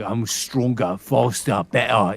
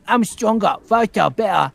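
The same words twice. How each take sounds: First: Cockney, building louder; Cockney with each word hit harder; Cockney accent. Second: Put-on high, loud little kid doing Cockney; loud, high-pitched Cockney copycat; child's Cockney. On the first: Retold or imitated. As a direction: put on a punchy Cockney. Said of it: "doing Cockney and be like". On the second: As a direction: mimic a small son echoing Cockney, pitched way up. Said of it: "And he'd be like".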